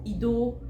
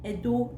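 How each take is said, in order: First: "Ido" with the opening E of Edo turned to an "ee" sound; deliberate mispronunciation. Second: Said in the usual way. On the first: Retold or imitated. Mocking people who misname Edo on purpose, "Ido" affectedly said. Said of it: "They do things on purpose". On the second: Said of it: "like, I'm from Edo now".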